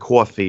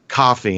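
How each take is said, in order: First: It is said in a heavy New York accent. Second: It is said in a neutral, non-New York accent. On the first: The speaker calls it wrong. "toned down the New York accent" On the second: The speaker calls it right. "say coffee instead of"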